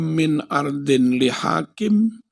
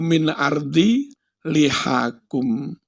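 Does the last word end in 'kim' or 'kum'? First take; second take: kim; kum. First: The last word ends with the sound 'kim'. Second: The last word ends with the sound 'kum'. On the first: The speaker calls it wrong. "Ngawur ae" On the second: The speaker calls it right. "Padahal kudu min ardi lihakum"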